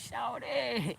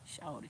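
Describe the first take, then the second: First: It sounds impressed and approving. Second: It sounds annoyed and warning. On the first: The listener did something great. "like you did that" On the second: The listener should calm down and stop. "That's my way of saying you might want to bring it down a notch"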